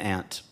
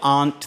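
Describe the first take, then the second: First: It is said in the plain, everyday way. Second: It is said in the fancy-sounding way. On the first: The speaker calls it right. "I'm vase and aunt" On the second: The speaker calls it wrong. "They all sound too fancy"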